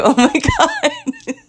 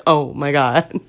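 First: Very high, drawn-out squeal through laughter; laughing disbelief. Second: Lower, subdued mock dismay; understated deadpan reaction. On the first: Retold or imitated. Woman retelling nearly dropping her dog, laughing disbelief. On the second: Woman voicing her dog after the near drop, understated. Voices the dog just sitting there.

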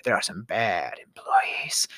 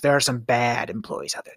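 First: Hushed, slow repeat in a whisper; breathy whispered aside. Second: Said in the usual way. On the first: Real, not acted. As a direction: whisper it like a secret.

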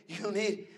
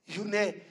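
Both takes have the same delivery.

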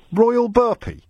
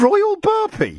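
First: Asking it back in disbelief, higher; can this really be his name; incredulous. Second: Much higher, slow, stretched incredulous cry; utter disbelief. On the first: Host asks the caller about the name, incredulous. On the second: Host repeats the caller's odd name, amazed and drawn out. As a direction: savour the absurd name in amazement. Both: Real, not acted.

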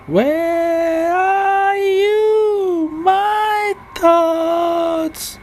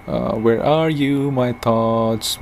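First: "Where are you, my thoughts?" sung high and very slow; sung, stretch each word out into a wobbly high tune; failed singing. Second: Said in the usual way. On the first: Pretend. Sung, calling to her lost thoughts in mock song. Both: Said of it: "my failed attempt at singing".

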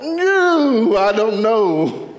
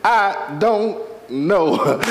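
First: High swooping "No", then slow "I don't know"; drawn-out high wail. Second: "I don't know" stretched out word by word; very slow, deliberate. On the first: Preacher says it one more time, "No" wailed high, "I don't know" slow. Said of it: "And I'll say it one more". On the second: Preacher repeats it so they hear it, "I don't know" very slow. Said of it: "I'm gonna say it like this". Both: Shown as a demonstration.

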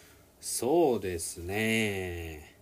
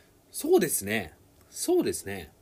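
First: そうですね stretched slowly to stall; slow pausing そうですね. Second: そうですね, そうですね fast and a bit louder; quick agreeing そうですね. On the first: Teacher showing a stalling answer to a friend. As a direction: draw out そうですね while thinking. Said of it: "it would mean that you a-, you're actually posing". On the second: Teacher showing agreement with a friend's answer. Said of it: "that would mean that you guess the same way". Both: Shown as a demonstration.

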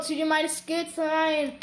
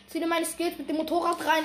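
First: Show-off drawl, slow; slow bragging. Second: Said in the usual way. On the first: Real, not acted. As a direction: savour every word, cocky. Bragging to viewers.

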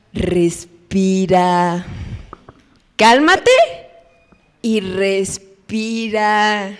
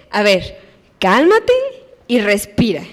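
First: Slow, drawn-out soothing respira; calming. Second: Soothing cálmate rising, respira lower; calming. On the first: Parent slowly calming a crying child. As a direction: stretch it out to calm a sobbing kid. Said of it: "siempre la palabra". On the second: Parent telling a crying child to calm down. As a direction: gently settle a crying child. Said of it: "¿qué hay que decirles?". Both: Retold or imitated.

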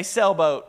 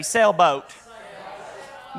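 First: Said in the usual way. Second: Southern drawl on "Sailboat", vowel stretched; Southern accent. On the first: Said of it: "No, like me". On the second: Shown as a demonstration. Pastor shows the crowd his Southern "Sailboat". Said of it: "like me, like the Southern accent".

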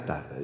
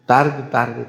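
First: The last tarde dropped to near silence, much softer; faded out. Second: Said in the usual way. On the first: Shown as a demonstration. Priest answers the lady, tarde trailing off softly. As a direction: let tarde die away to almost nothing. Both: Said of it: "Pues sí".

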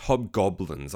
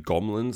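First: "hobgoblins" said slowly with both b's; slow, deliberate "hobgoblins" with a clear "-blins"; corrected pronunciation. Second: "gomlins" with m in place of the b's; mispronunciation. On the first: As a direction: sound out "hobgoblins" carefully, keeping the b in "gob". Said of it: "I keep saying it wrong". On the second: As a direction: slur "goblins" into "gomlins". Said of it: "I cannot say the word". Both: Shown as a demonstration.

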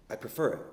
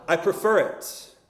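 First: Faint and weak, fading; barely voiced, dying man. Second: Firmer and louder. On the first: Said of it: "he said in a weak voice". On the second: Retold or imitated. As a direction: stronger second time. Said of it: "And then louder".

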